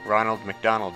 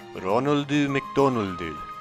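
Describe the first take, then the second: First: The names end in consonants with no added vowel. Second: Each name ends with an added oo vowel.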